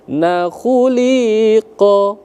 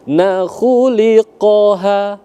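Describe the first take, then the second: First: The vowel in 'li' is drawn out long. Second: The vowel in 'li' is short, one beat. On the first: The speaker calls it wrong. "Jangan na khuliqa" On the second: The speaker calls it right. "itu satu ketukan dia"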